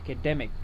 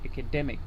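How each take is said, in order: First: The stress is on the 'de' syllable. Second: The same.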